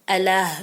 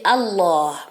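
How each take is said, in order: First: The l sound is light and thin. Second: The l sound is deep and heavy. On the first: The speaker calls it wrong. "On dit pas" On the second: The speaker calls it right. "il est emphatique. Ça veut dire qu'il est grave"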